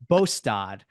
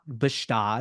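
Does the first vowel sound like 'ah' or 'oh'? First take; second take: oh; ah. First: The first vowel sounds like 'oh'. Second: The first vowel sounds like 'ah'. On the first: The speaker calls it right. "it's actually Bostad" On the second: The speaker calls it wrong. "It is not Bastad"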